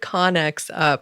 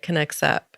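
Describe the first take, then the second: First: The first word sounds like 'Con-nex', as in 'Con Air'. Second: The first word sounds like the verb 'connects'. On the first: The speaker calls it wrong. "I mispronounced your company name. I said Connex Up, like it's Con Air" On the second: The speaker calls it right. "you said connects, like connect, right?"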